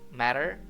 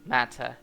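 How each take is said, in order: First: It is said with an American accent. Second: It is said with a British accent. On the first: "di American English penyebutannya matter" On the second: "Kalau di British English penyebutannya matter, Jadi R-nya di silent"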